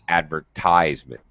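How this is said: It is said in an American accent. "Americans say"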